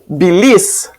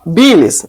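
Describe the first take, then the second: First: The stress is on the last syllable. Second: The stress is on the first syllable. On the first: The speaker calls it wrong. "não bilis" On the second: The speaker calls it right. "a gente fala bilis"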